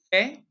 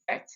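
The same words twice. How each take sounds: First: Fait as "feh", T silent; correct French pronunciation. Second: Fait with the final T sounded; softer fait, wrongly closed on a hard T; wrong pronunciation. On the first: Teacher correcting for pupils, fait without the T. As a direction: leave fait open on the vowel, tune rising. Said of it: "we don't pronounce the T". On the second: Teacher showing the mistake, fait pronounced with a T. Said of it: "We don't say fait". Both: Shown as a demonstration.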